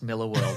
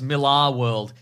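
First: The name's second syllable sounds like 'er'. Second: The name's second syllable sounds like 'ar'. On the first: The speaker calls it right. "It's pronounced Miller World" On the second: The speaker calls it wrong. "we've said Millar too many times to go back now"

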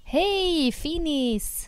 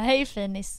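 First: The greeting sounds jokey and playful. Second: The greeting sounds sincere and plain.

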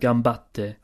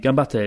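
First: A short pause comes before a stressed t. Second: The t follows directly with no pause. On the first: The speaker calls it right. "you have a little pause and you sort of enunciate the T sound" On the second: The speaker calls it wrong. "it wouldn't be gambatte"

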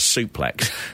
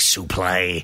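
First: The word ends with a 'ks' sound. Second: The word ends with an 'ay' sound. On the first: The speaker calls it right. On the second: The speaker calls it wrong.

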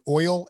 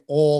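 First: The vowel glides fully, as standard 'oil'. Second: The vowel is flattened, like 'all', Southern style. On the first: The speaker calls it right. "She wanted us saying oil and iron" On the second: The speaker calls it wrong. "She didn't want us saying all or iron"

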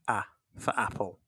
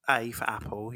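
First: The A is said as its short sound. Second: The A is said as the letter name. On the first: The speaker calls it right. "you say" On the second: The speaker calls it wrong. "you don't say"

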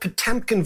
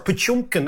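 First: The name is said with an English pronunciation. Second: The name is said with a Russian pronunciation.

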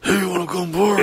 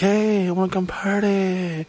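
First: It is said in a raspy smoker's voice. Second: It is said in a plain voice.

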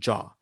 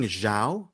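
First: The name sounds like the word jaw. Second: The name starts with a z sound. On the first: The speaker calls it right. "the way you pronounce it is Chloe Jaw" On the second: The speaker calls it wrong. "So you're thinking Zhao"

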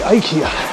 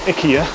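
First: It is pronounced the common English way. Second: It is pronounced the Swedish way. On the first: This is how most people locally say it. "most people I speak to say IKEA" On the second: This is how the brand's home country says it. "I know the Swedes say IKEA"

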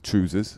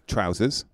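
First: It is said in a Scottish accent. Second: It is said in a non-Scottish accent.

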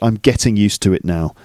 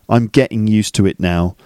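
First: The T sounds are clearly pronounced. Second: The T sounds are dropped. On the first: The speaker calls it right. "it's a bit more proper to say" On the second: The speaker calls it wrong. "You could say"

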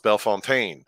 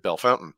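First: It is said the way outsiders would expect. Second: It is said the way locals say it. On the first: This is how outsiders would say the town name. The speaker calls it wrong. "you would pronounce Bellefontaine" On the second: This is how locals say the town name. The speaker calls it right. "they pronounce it Bellefountain"

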